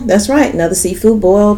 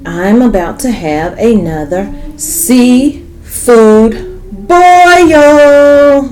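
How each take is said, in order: First: Said in the usual way. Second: Drawn-out, loud, high "boil"; slow, stretched excited announcement. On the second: Real, not acted.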